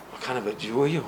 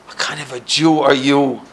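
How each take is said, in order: First: Softly repeating the question to himself; hushed, wondering repeat; quiet echo. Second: Said in the usual way. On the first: Retold or imitated. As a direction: turn it over quietly, puzzled. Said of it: "Nobody ever asked me that". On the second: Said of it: "starts screaming at me".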